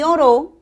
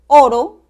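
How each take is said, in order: First: The stress is on the last syllable. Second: The stress is on the first syllable. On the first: It is a past-tense verb. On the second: It refers to the metal.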